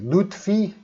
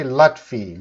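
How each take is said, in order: First: Lutfi with an "oo", LOOT-fee, higher and questioning; alternative pronunciation. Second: Lutfi with a short open "ah", LAHT-fee; own pronunciation. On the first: Teacher checking a student's name, Lutfi as LOOT-fee, questioning. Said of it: "It might be your pronunciation of your name". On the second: Teacher giving a student his own way of saying the name, Lutfi as LAHT-fee. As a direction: say Lutfi with first vowel as in "lot". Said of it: "I say Lutfi". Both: Shown as a demonstration.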